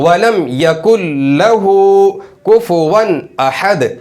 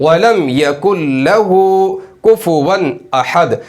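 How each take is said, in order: The two takes are said the same way.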